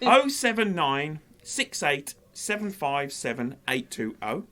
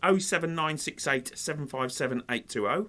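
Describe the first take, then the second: First: The number is read slowly. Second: The number is read fast.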